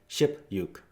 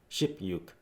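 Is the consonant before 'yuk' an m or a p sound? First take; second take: p; p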